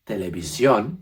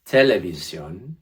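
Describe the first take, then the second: First: "televisión" with a louder final ón; extra push at end. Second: "televisión" slowly, loud first syllable instead of final ón; missing the final stress. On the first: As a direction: push hard on the last syllable of "televisión". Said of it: "little extra push at the end". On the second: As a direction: move the weight to the start of "televisión". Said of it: "But if you said". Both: Shown as a demonstration.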